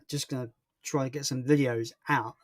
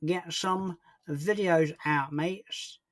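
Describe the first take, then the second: First: Said in the usual way. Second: Slow, stretched-out mock voice; put-on, drawn-out echo of the answer; silly put-on voice. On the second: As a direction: drag each word out playfully. Playful put-on repeat of answer.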